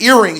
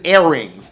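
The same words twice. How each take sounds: First: It is said in the speaker's own accent. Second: It is said in a slight Caribbean accent.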